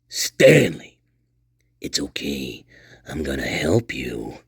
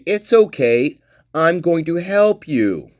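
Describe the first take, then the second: First: It is said in a strange, menacing voice. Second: It is read in a plain, friendly tone.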